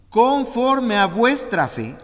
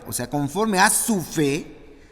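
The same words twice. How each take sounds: First: Slow, high, loud pronouncement; weighty solemn declaration; proclaimed scripture. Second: Said in the usual way. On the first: Acted. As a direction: declare it like a verdict. Proclaiming Jesus' words.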